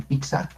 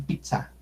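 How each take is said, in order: First: Pizza said as piksa, with a k; mispronounced pizza. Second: Pizza as PIT-sa with a quick stop; cut airflow. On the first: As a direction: put a k before the s in pizza. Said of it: "al menos que le digan pizza". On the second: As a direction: block the air briefly inside pizza. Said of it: "cortamos el aire para decir pizza". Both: Shown as a demonstration.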